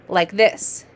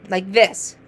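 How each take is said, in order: No difference in how they are said.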